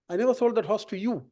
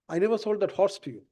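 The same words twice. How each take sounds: First: The word 'you' carries the main stress. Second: The word 'horse' carries the main stress. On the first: The horse went to another buyer. "I sold it to somebody else" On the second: A different animal was sold. "I sold you a cow or a buffalo or a donkey"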